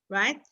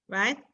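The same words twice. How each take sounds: Both takes have the same delivery.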